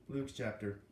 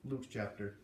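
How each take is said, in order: Both takes have the same delivery.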